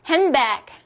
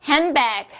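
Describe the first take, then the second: No difference in how they are said.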